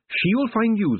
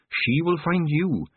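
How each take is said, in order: First: Said in the usual way. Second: Each word slow and weighty; slow and deliberate. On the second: A narrator's reading. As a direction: spell it out slowly, insisting. Repeated slowly to make her listen.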